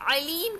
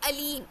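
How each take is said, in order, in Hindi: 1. इसकी शुरुआत गहरी हलक़ वाली ऐन की आवाज़ से होती है। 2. इसकी शुरुआत सादे हमज़ा की आवाज़ से होती है। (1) "आइन की जगह" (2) "हमजा"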